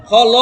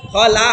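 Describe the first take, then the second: First: খ ল with a short clipped ল, no long আ; wrong short vowel. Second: খ লা with the আ of লা held open; correct long vowel. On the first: Teacher shows a student's mistake, clipped ল. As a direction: says খ ল the wrong way, ল cut short. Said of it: "ওইটা ল হয়ে গেছে". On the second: Teacher gives the correct reading, long লা. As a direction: says খ লা the right way, লা lengthened. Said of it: "খ লা হবে". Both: Shown as a demonstration.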